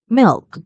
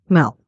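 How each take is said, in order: First: The vowel is a short, close i sound. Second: The vowel is a more open e sound. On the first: The speaker calls it right. "The vowel I is short" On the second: The speaker calls it wrong. "the vowel I is replaced by E, which makes the vowel sound more open"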